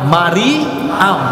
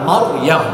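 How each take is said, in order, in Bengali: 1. নামটি তিনটি শব্দাংশে বলা হয়। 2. নামটি দুটি শব্দাংশে বলা হয়। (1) "এগুলো আসলে ভুল।" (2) "সঠিক নাম হচ্ছে মারইয়াম।"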